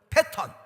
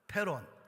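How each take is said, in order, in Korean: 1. 가운데 자음은 또렷한 T 소리처럼 들려요. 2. 가운데 자음은 빠른 R 소리처럼 들려요.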